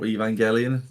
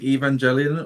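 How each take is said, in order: First: The name has a deliberately altered pronunciation. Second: The name has its usual pronunciation.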